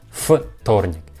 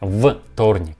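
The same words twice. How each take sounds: First: The first consonant is a voiceless f sound. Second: The first consonant is a voiced v sound. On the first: The speaker calls it right. "We pronounce this sound like вторник" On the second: The speaker calls it wrong. "we don't pronounce like вторник"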